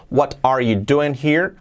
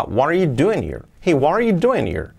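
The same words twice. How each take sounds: First: "What are you doing here?" slower, every word separate, rising at the end; careful, unlinked words. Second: "what are" run into "wa-rer", peak on "doing"; linked with intonation. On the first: Teacher showing the before version, careful separated words. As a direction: keep the T in "what" and the words apart. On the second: Teacher showing the changed version, linked lively question. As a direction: join the words and let the tune swoop down. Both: Shown as a demonstration. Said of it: "Fijaos cómo cambia".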